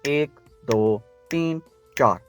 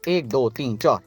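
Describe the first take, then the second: First: The counting is at a normal, slower pace. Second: The counting is quick, about double speed. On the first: "ये normal speed थी" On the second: "इस तरह से तेजी से play होगी"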